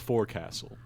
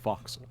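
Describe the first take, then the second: First: It is said in full as fore-castle. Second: It is said in short as foksul. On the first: The speaker calls it wrong. "It is not the forecastle" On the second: The speaker calls it right. "It's the foxel"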